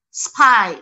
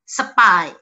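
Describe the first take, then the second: First: The s and p form a tight cluster. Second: A vowel is inserted between s and p.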